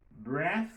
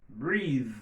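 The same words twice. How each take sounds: First: "Breath" with short e and voiceless th; voiceless final th. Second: "breathe" with long ee and buzzing th; voiced final th. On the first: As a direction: end "Breath" on air, no buzz. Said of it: "li on voice". ("breath" ak th san vwa) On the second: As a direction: stretch "breathe" into a humming th. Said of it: "il vient sonore". ("breathe" ak th sonò) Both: Shown as a demonstration.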